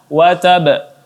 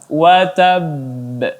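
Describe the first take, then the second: First: The final b stops short with no echo. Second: The final b is held, then bounced out. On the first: The speaker calls it wrong. "tidak dibaca watab" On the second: The speaker calls it right. "ditahan sebentar kemudian baru dipantulkan"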